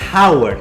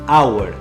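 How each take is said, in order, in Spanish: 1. La palabra empieza con una h aspirada. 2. La palabra empieza directamente con una vocal. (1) "No hay J, no es hour" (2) "es hour"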